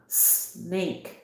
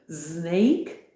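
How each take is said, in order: First: The word starts with a hissing s sound. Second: The word starts with a buzzing z sound. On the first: The speaker calls it right. "There is no z. It's always" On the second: The speaker calls it wrong. "they usually pronounce it wrong because they go"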